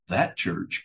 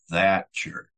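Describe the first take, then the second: First: The word 'that' is short and neutral. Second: The vowel in 'that' is drawn out with contempt. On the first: It just points to a church. "Not that church" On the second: The church is looked down on. "they'll drag out the A with a note of contempt and scorn"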